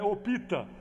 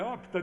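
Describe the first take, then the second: First: An extra vowel is inserted between p and t. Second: The p and t are said together without a vowel. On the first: The speaker calls it wrong. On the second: The speaker calls it right.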